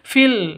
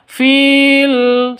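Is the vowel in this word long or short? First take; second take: short; long. First: The vowel is said short. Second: The vowel is said long. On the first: The speaker calls it right. "langsung pendek fil langsung masuk seperti itu" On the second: The speaker calls it wrong. "bukan dibaca fil salah"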